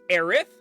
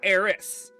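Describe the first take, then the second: First: The name ends with a th sound. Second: The name ends with an s sound. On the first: "a T H sound" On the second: "or an S sound"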